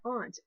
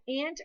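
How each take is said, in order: First: Aunt said ahnt, with the ah and faucet sound; ahnt pronunciation. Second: Aunt rhymes with pant; ant pronunciation. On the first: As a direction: say aunt with a broad open ah, as in father. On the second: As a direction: say aunt like ant, with a flat a as in cat. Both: Shown as a demonstration. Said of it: "aunt or aunt".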